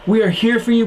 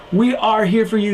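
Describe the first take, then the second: First: YOU lifted and leaned on, We light; stress on you. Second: WE lifted and leaned on, you light; stress on we. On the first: To viewers who are hurting, weight on you. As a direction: hit the word you, not we. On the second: To viewers who are hurting, weight on we. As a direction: hit the word We, not you. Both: Shown as a demonstration.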